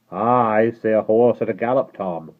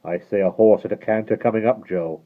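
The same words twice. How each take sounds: First: Guard voice. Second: Coachman voice. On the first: Guard answering. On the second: Coachman listening. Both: Acted.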